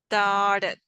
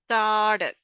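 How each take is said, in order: The two takes are said the same way.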